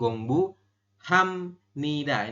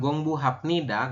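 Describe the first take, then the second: First: An m sound comes before nida. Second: A p sound comes before nida. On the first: The speaker calls it right. "tapi Gongbu Hamnida" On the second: The speaker calls it wrong. "bukan Gongbu Hapnida"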